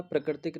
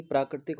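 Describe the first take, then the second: First: प्राकृतिक said as pra-kritik; wrong short vowel. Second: प्राकृतिक with a long 'praa'; correct long vowel. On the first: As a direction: clip the first vowel of प्राकृतिक to short 'pra'. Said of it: "प्राकृतिक नहीं". (प्राकृतिक को 'प्रकृतिक' बोलकर) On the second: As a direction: open the first syllable of प्राकृतिक to praa. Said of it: "प्राकृतिक होता है". (प्राकृतिक, लंबे 'प्रा' के साथ) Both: Shown as a demonstration.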